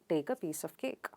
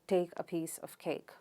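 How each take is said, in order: First: An Indian accent, with no puff of air. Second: A Northern English accent, with light aspiration. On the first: "Indians would pronounce it without aspiration" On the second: "People from northern part of England ... with less aspiration"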